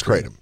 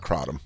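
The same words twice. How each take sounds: First: Kratom said as CRAY-tum; first vowel as "ay". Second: Kratom said as CRAH-dum; first vowel as "ah". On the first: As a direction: say Kratom with a long "ay", like crate. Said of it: "It's not Kratom". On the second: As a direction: say Kratom with an open "ah" up front. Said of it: "It's Kratom". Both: Shown as a demonstration.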